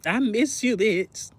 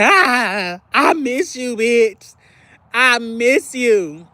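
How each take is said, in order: First: Softer, half-voiced plea; a gentle hint of missing a friend; quiet longing. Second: Higher, pleading mock whine, last line drawn out slowly; playful ache of missing a friend; whiny longing. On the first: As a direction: say it soft, barely there. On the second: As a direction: stretch out the missing like a lonely plea. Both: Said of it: "I'm like".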